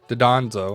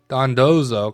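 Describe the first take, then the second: First: The name is said with 'd' before the 'n'. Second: The name is said with 'n' before the 'd'. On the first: The speaker calls it wrong. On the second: The speaker calls it right.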